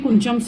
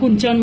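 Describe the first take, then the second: First: The middle consonant is ch, ending in m. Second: The middle consonant is ch, ending in n. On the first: The speaker calls it right. "याला कुंचम इथं लिहिलंय बघा" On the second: The speaker calls it wrong. "किंवा कुंचन म्हणतात"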